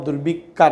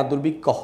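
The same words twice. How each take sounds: First: দুর্ভিক্ষা said with a long open a at the end; wrong ending shown. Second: দুর্ভিক্ষ ending clipped on the ক্ষ with no final a; correct pronunciation. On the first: Teacher shows students the wrong form দুর্ভিক্ষা with final a. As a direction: give দুর্ভিক্ষা the wrong final a, as the mistake to avoid. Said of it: "ভিক্ষা বলতে হবে না". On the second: Teacher gives students the right form দুর্ভিক্ষ, no final a. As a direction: say দুর্ভিক্ষ cleanly, stopping on the ক্ষ. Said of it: "দুর্ভিক্ষ বলতে হবে". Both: Shown as a demonstration.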